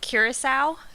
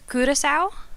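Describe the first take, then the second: First: The name is said with an American English pronunciation. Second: The name is said with a Dutch pronunciation. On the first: "how I would say it in English or in American English" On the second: "in Dutch"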